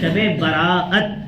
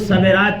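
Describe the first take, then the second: First: It is split, with a break in 'bara'at'. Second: It is run together, starting with 'sa'. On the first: The speaker calls it right. "सही तलफ़ुज़ क्या है?" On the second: The speaker calls it wrong. "कुछ सबेरात कहते हैं, ये सब गलत pronunciation है"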